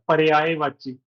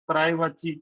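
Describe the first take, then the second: First: The word is said with careful, precise sounds. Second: The word is said in a loose, everyday way. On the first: This is the standard pronunciation. The speaker calls it right. "पर शुद्ध उच्चारण होता है" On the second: This is how people usually say it. The speaker calls it wrong. "हम तो ऐसे ही बोलते हैं ना"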